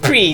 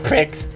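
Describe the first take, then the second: First: The word ends in a vowel sound. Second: The word ends in a ks sound. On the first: The speaker calls it right. "Pre, not pricks" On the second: The speaker calls it wrong. "You said it wrong"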